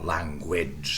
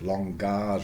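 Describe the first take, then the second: First: It is said with a w sound after g. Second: It is said without a w sound after g. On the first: This is the modern pronunciation. "language today with this W" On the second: This is the older medieval pronunciation. "this is what, certainly Chaucer would have said"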